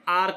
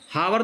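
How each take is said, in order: First: The word begins with a vowel sound. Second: The word begins with an h sound. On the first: The speaker calls it right. "इसको हम आर कहते हैं" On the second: The speaker calls it wrong. "हावर तो कहते नहीं"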